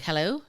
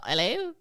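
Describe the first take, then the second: First: Said in the usual way. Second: British "'Ello?" with the H dropped; mock British hello. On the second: Billy answers his phone at night, mock British accent. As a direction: answer in a put-on British accent, pitched up at the end.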